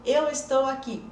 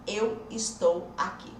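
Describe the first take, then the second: First: Said in the usual way. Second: "Eu estou aqui" slowly, each word separated; slow, spaced dictation of "Eu estou aqui". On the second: Shown as a demonstration. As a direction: spell out "Eu estou aqui" one word at a time. Repeats sentence word by word.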